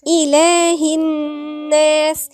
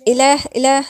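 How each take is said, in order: First: إله with a clear "ee", drawn out slowly; correct recitation. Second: إله said quickly with a lax first vowel; wrong short opening. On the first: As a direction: recite إله الناس slowly, holding the n hum and long vowels. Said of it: "مش إله". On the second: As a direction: wrongly flatten the "ee" that opens إله. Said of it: "لا". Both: Shown as a demonstration.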